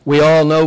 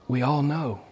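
First: Proclaimed loud and firm; loud declaration. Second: Softer, settling the point; soft repeat. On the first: Preacher to congregation, loud proclamation. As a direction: announce it to the whole room. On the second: Preacher to congregation, quiet repeat. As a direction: let it land gently. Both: Real, not acted.

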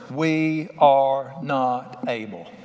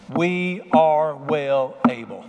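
First: "We are not able" very slow, each word dragged out, "are" the peak; slow defeated words. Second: "We are well able" very slow, each word pressed, "are" the peak; emphatic confidence. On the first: Preacher mimicking the fearful spies, a slow heavy "We are not able". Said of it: "watch these four words". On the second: Preacher showing Caleb's faith, each word of "We are well able" slow and weighted. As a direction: lay down every word with faith. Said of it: "Watch these four words". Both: Shown as a demonstration.

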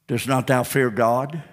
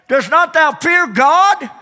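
First: Said in the usual way. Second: "Dost not thou fear God?" high and slow, "God" falling hard; full preaching. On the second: Shown as a demonstration. Preacher at full force demanding an answer, high and slow. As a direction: drag it out at the peak. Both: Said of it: "repeated with rising force".

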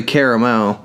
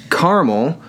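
First: Caramel said as CARE-uh-mel; caramel in three syllables, starting like care. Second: Caramel said as CAR-mul; caramel in two syllables, starting like car. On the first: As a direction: keep the middle vowel of caramel, CARE-uh-mel. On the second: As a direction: drop the middle vowel of caramel, CAR-mul. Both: Shown as a demonstration. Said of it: "Some people say caramel".

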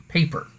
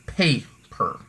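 First: Paper in one piece, first syllable higher; stress on PAY. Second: Paper split slowly into PAY, per; stress on first syllable. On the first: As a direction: say paper whole, punching the PAY. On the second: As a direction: break paper in two, leaning on PAY. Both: Shown as a demonstration. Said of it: "it goes to the first syllable".

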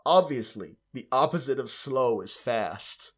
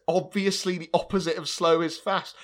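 First: Put-on terrible American accent. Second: Gleeful mock reprise. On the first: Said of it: "I'm gonna do a terrible American accent for it". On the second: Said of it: "It's so good".

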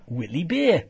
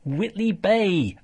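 First: Geordie vowel, Bay as Beer; quick Geordie take on Whitley Bay; Geordie accent. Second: Said in the usual way. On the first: Shown as a demonstration. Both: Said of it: "I'll just do a Geordie accent".

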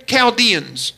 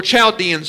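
First: Chaldeans with a hard K sound at the start; hard K pronunciation. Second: Put-on Chaldeans with CH as in "child"; CH pronunciation. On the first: Preacher offering congregation one pronunciation, Chaldeans said with a K. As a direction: say Chaldeans as "kal-DEE-ans". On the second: Preacher offering congregation the other pronunciation, Chaldeans said with CH. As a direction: say Chaldeans as "chal-DEE-ans". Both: Shown as a demonstration. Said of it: "however you want to pronounce it".

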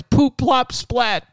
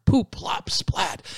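First: High, much louder plops; loud sound effect. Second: Whispered sound effect. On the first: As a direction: announce the mess with glee. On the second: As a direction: tell it like a naughty secret. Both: Acted. Chickens messing the house.

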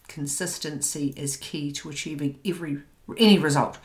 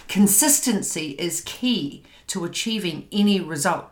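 First: Said in the usual way. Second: Louder with CONSISTENCY punched; emphatic motto. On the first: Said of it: "'Cause he's like". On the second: Shown as a demonstration. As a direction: stress "consistency" hard, then say the rest firmly. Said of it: "So write that down".

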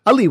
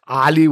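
First: Ali with a short, reduced first vowel, uh-LEE. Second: Ali with an open, long first A, AH-lee. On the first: Host giving another accepted version of the name, Ali as uh-LEE. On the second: Host giving one accepted version of the name, Ali as AH-lee. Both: Shown as a demonstration.

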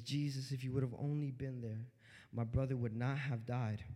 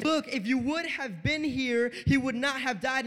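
First: Low, soft retold plea; hushed, low-pitched reproach; subdued retelling. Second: Louder, higher "would not have died"; insistent retold "if you would have been here", words drawn out; emphatic retelling. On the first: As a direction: quote her quietly and evenly. Mary's words to Jesus, first take. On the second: Mary's words repeated, forceful take.

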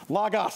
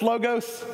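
First: "Logos" as LAH-gahss; open-O pronunciation. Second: "logos" as LOH-gohss; long-O pronunciation. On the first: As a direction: pronounce "Logos" with open AH in both syllables. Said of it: "how do you say it". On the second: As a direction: pronounce "logos" with long O in both syllables. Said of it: "I learned from Harvey Floyd that it's". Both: Shown as a demonstration.

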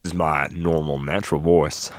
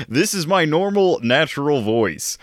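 First: Host mimics co-host's put-on voice, slightly lower; mock imitation. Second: Joking put-on voice, claimed as natural, a bit higher; mock normal voice. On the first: Host mocks co-host's claim of a natural voice. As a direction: parrot his voice back mockingly. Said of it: "what are you doing, boy?". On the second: Co-host insists the silly voice is his real one. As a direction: keep the odd voice while insisting it's normal.

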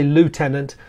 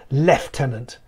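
First: "lieutenant" with LOO first and no F; the American "lieutenant", starting like "loo"; American pronunciation. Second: "lieutenant" with an F, starting LEF; slowly demonstrated British "lieutenant", lef-tenant; British military pronunciation. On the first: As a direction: say "lieutenant" as loo-TEN-ant. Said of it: "or as you say". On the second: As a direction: say "lieutenant" as lef-TEN-ant. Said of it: "is pronounced lieutenant". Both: Shown as a demonstration.

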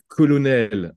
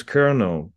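First: "colonel" the French way, with a clear L in the middle; "colonel" in French, with the L sounded; French pronunciation. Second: "colonel" the English way, with an R sound and no L; "colonel" in English, an R where the L is written; English pronunciation. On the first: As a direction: say "colonel" as a French word, slowly. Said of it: "colonel en français". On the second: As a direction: say "colonel" like "kernel", with an American R. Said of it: "il n'y a pas de L au milieu, il y a un R". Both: Shown as a demonstration.

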